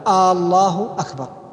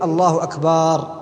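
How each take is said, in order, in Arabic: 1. الحركة الأولى في «الله» تُمدّ مدًّا طويلًا. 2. الحركة الثانية في «أكبر» تُمدّ مدًّا طويلًا. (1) "الهمزة المقدمة الاستفهامية قبل لفظ الجلالة" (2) "الخلل يكون فيما يفعله بعض المؤذنين من مد كلمة أكبر"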